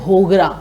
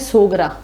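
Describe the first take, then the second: First: The word begins with an h sound. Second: The word begins with an s sound. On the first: "ह कर देते हैं" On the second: "बाजरी के आटे को सोगरा कहते हैं"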